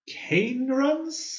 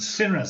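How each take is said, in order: First: The name begins with a hard K sound. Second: The name begins with a soft S sound.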